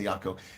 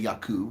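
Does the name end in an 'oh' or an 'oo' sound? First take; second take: oh; oo. First: The name ends in an 'oh' sound. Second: The name ends in an 'oo' sound. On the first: The speaker calls it wrong. "You don't say Yako" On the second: The speaker calls it right. "you guys say Yaku"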